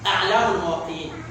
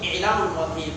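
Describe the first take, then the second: First: The first word begins with an 'a' vowel. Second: The first word begins with an 'i' vowel. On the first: The speaker calls it right. "the correct pronunciation is" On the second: The speaker calls it wrong. "Some scholars call it"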